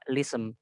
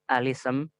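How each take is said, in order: First: The word begins directly with 'l'. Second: The word begins with an 'a' vowel. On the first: "yang kedua lism" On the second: "Yang pertama alism"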